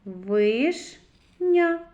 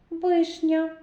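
First: Вишня split into ВИШ, pause, a loud НЯ; syllable by syllable. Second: Said in the usual way. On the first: Shown as a demonstration. Teacher reads with children, syllable by syllable. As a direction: read Вишня as two separated syllables, Виш – ня. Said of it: "Прочитаємо". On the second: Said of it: "Звуковий аналіз слова".

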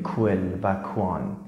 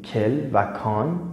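First: کول و کوان said with an English kw sound; wrong w glide. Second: کل and کان said as French quel and quand, no w glide; teacher models the right French qu with a plain k; French qui sound. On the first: Teacher contrasts the wrong reading for students: kw glide. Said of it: "ما نمیگیم". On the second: Teacher showing students the right French reading: clean k sound. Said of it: "ما نمیگیم کول و کوان". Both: Shown as a demonstration.

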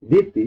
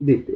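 First: Regional দিতি, slow, long final i; dialect diti. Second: Standard দিতে, ending in e; standard dite. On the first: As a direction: draw out দিতি as the dialect form. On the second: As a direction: say দিতে plainly, di-te. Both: Shown as a demonstration. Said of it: "এটা হলো দিতে".

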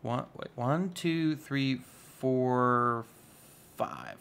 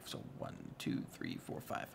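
First: Said in the usual way. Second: Whispered count. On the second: Real, not acted. To himself, recounting blocks, whispered.

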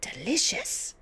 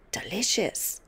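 First: Higher, squeezed repeat; tight-lipped savouring. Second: Lightly relished, lingering word; understated gloating pleasure; savouring. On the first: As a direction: say it through tightly pursed lips. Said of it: "She squeezed her lips together tight". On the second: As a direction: savour it like a treat. Grandmother savours eating slugs. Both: A narrator's reading.

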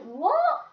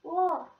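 First: Much higher, louder, rising disbelief; can't believe what she just said; baffled what. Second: Mildly puzzled, a touch higher; a half-baffled query; confused what. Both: Retold or imitated. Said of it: "I was like".

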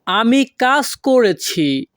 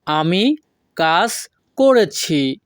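First: Said in the usual way. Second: Slow, pausing between আমি, কাজ and করেছি; word by word. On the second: Shown as a demonstration. Teacher repeats the first sentence for learners, word by word. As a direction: separate আমি / কাজ / করেছি with clear gaps. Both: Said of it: "আমাদের প্রথম বাক্যটি আছে".

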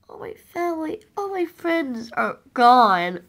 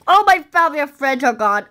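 First: Mournful. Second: Said in the usual way. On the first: Pretend. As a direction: drag it out, grieving softly. Mourning lost family, first take.

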